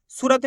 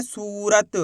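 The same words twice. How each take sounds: First: सूरत with a short "u", not held; short clipped ू. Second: सूरत with a long, stretched "oo"; drawn-out long ू. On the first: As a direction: say सूरत quickly, as if spelt सुरत. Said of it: "सूरत नहीं पढ़ना". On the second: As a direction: hold the सू of सूरत before adding रत. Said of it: "खींच के पढ़ा जाता है". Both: Shown as a demonstration.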